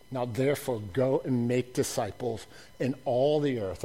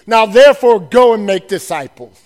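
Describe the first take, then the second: First: Much softer, low and hushed; hushed reflective repeat; soft restatement. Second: Commanding loud charge; loud proclamation. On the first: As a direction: say it quietly, almost to yourself. Same commission, said softly. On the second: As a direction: boom out the commission. Commission proclaimed loudly. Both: Acted.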